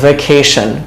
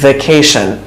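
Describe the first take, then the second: The two takes are said the same way.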